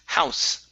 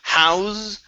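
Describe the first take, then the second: First: The word ends with a hissing S sound. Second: The word ends with a buzzing Z sound. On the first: The speaker calls it right. "unvoiced S" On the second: The speaker calls it wrong. "instead of house with a Z sound"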